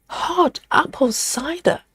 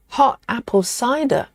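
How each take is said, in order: First: "Hot apple cider" higher and slower, rising at the end; "Hot apple cider" lifted high and slow like a query; puzzled rising read. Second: Said in the usual way. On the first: Shown as a demonstration. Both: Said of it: "as in hot apple cider hot".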